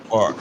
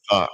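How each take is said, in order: First: "park" said as "pahk", no r; Boston park. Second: Said in the usual way. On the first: Shown as a demonstration. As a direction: drop the r in "park", long ah. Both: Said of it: "You guys have Boston accent".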